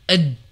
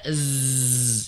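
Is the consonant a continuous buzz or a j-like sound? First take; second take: j-like; buzz. First: The tongue closes fully, giving a j-like sound. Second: Air buzzes through a gap, giving a z sound. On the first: The speaker calls it wrong. "Kalau tertutup rapat nanti jadi j gitu" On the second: The speaker calls it right. "dia ada celah di sana"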